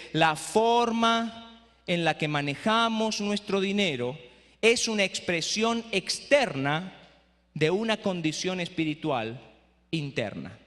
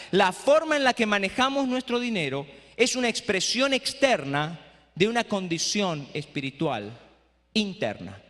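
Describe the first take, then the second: First: Slow quote. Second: Said in the usual way. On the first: Shown as a demonstration. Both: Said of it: "Se la voy a repetir de nuevo".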